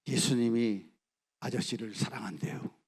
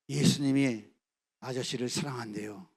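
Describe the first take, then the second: First: Put-on boy gently telling the executioner; gentle telling. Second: Put-on boy repeating his words to the executioner; firmer repeat. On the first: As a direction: tell him kindly and simply. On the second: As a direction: repeat it steadily without fear.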